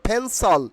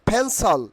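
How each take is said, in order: Both takes have the same delivery.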